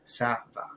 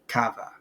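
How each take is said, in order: First: The first word starts with an S sound. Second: The first word starts with a K sound. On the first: The speaker calls it right. "causes the C to sound like an S" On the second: The speaker calls it wrong. "without the cedilla, it would be"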